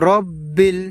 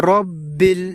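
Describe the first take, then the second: No difference in how they are said.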